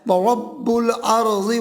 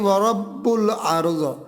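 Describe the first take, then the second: First: It runs on, ending 'ardi' into the next word. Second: It ends on a bare 'ard' with a stop. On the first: "फिर आपने वापस आके पढ़ना है" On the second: "आगे यहाँ रुकना नहीं है"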